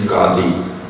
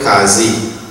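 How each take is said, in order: First: The middle consonant is a d sound. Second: The middle consonant is a z sound. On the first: This is the original correct form. The speaker calls it right. "The correct pronunciation is Qadi" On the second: This is the local usage in Trinidad. The speaker calls it wrong. "in Trinidad they call it Kazi"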